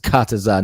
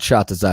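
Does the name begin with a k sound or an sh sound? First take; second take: k; sh. First: The name begins with a k sound. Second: The name begins with an sh sound. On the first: The speaker calls it right. "It's Kataza" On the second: The speaker calls it wrong. "not Shataza"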